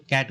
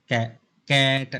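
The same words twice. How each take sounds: First: Said in the usual way. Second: "कैट" stretched slowly and chopped into pieces, कै, then ट; wrongly broken word. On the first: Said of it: "कैट बोलते हो". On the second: Shown as a demonstration. Teacher showing how not to say it, "कैट" wrongly split. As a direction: break "कैट" apart as if it had two beats. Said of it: "ऐसा नहीं बोलते हो".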